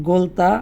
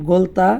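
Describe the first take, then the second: Both takes have the same delivery.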